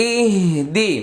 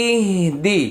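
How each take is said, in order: Both takes have the same delivery.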